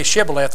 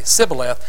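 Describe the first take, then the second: First: The word begins with a sh sound. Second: The word begins with an s sound. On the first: This is how the insiders say it. The speaker calls it right. "say Shibboleth" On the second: The speaker is revealed as an outsider. The speaker calls it wrong. "They couldn't pronounce the letter H in their words. They'd say Sibboleth"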